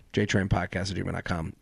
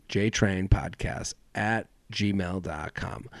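First: Said in the usual way. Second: Slow, quiet, each part of the email laid out; slow spelled-out address. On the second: Shown as a demonstration. Host reading email to listeners, slow and clear. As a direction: read the address slowly so it sticks.

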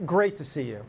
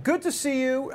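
First: Said in the usual way. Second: High-pitched, held-up mock greeting; put-on high greeting. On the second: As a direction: greet him in an exaggerated high voice. Exaggerated greeting, then redone normally.

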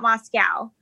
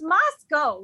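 First: Moscow shown as MOS-cow. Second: Moscow corrected to MOS-coe. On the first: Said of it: "it's not Moscow". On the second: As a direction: say Moscow ending in "oh". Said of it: "It's Moscow, right?". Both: Shown as a demonstration.

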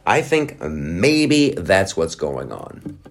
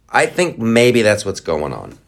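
First: Slow, deliberate repeat. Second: Said in the usual way. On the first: Real, not acted. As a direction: draw the words out slowly.

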